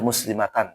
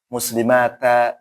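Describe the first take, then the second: First: The word ends with a final n sound. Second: The word ends on a vowel with no n sound. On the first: The speaker calls it wrong. "Nggak boleh muslimatan" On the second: The speaker calls it right. "harus dibaca kalau misalkan ya muslimata"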